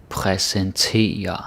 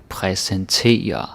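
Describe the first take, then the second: The two takes are said the same way.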